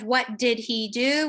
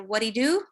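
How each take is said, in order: First: Every word is said fully, with the h. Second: The words run together and the h drops. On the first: "instead of" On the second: "we delete an initial H"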